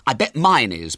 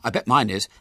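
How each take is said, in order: First: Counter-claim leaning hard on "mine"; stress on mine. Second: Said in the usual way. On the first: A narrator's reading. Ginger putting in a rival claim, emphatic stress on "mine".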